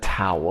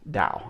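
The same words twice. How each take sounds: First: The word starts with a hard T sound. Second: The word starts with a softer, D-like sound. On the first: The speaker calls it wrong. "I said Tao with a hard T" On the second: The speaker calls it right. "I believe it's how it's actually pronounced"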